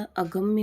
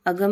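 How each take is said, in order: First: अगम्य with m gliding into ya; slow अगम्य, sounding the final mya; correct form अगम्य. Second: अगम ending on a plain m; wrong form अगम. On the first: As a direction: finish अगम्य on a clear -mya. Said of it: "होता है". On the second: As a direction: say अगम with no y sound after the m. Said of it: "नहीं होता". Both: Shown as a demonstration.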